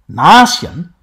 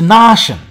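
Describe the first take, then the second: First: The middle sound is s followed by y. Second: The middle sound is a single sh.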